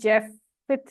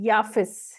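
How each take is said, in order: First: The name begins with a 'j' sound. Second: The name begins with a 'y' sound. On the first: This is how the written spelling reads. "ये जैफिथ लिखा हुआ है" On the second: This is how the name should be pronounced. "सही word है इसका याफिस"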